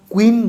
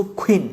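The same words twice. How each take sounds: First: "কুইন" with a plain k, no puff; unaspirated q. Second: "কুইন" with a puffed kh onset; aspirated q. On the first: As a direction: say "কুইন" as kuin on a dry ক. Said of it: "কুইন বলবো না". ("কুইন" শুরুতে সাদা ক) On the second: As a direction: say "কুইন" as khuin. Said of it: "আমরা বলবো". ("কুইন" শুরুতে খ উচ্চারণ) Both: Shown as a demonstration.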